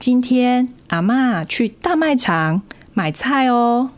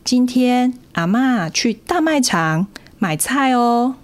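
First: It is broken into meaningful chunks with pauses. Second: It is broken into meaningful chunks with pauses.

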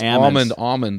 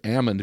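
First: The word is said with an audible L. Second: The word is said without any L sound. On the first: "they don't pronounce almond" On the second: "They pronounce it almond because they tell me they beat the L out of them"

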